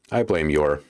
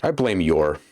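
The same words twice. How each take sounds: The two takes are said the same way.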